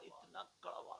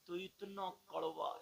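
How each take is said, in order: First: इतना कड़वा whispered, breath only; whispered repeat of इतना कड़वा; whispered echo. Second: Said in the usual way. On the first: Acted. Echo of bitterness, hushed.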